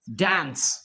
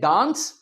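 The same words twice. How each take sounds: First: The vowel is a flat front 'eh' sound. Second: The vowel is a long open 'ah' sound. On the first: "American English में हम इसे क्या कहते हैं जी?" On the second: "British English में डांस"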